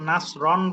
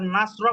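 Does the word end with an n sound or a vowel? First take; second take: n sound; vowel. First: The word ends with an n sound. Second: The word ends with a plain vowel. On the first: The word is used within continuing speech. "যখন ব্যবহার হবে তখন নাসরন বলতে হবে" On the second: The speaker stops at this word. "বলাও শুদ্ধ আছে। এটা যখন আপনি থামবেন"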